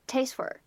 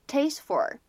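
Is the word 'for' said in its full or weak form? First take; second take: weak; full. First: The word 'for' is said in its weak form. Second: The word 'for' is said in its full form. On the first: "或者呢变成taste for" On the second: "它可以读成taste for"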